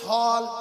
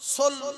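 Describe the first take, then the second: First: The vowel is an open 'aw' sound. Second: The vowel is a closed 'o' sound. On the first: The speaker calls it right. "সল হবে সল" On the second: The speaker calls it wrong. "সোল হবে না"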